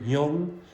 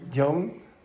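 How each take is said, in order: First: The word begins with a Y sound. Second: The word begins with a J sound. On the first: The speaker calls it right. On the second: The speaker calls it wrong. "don't say"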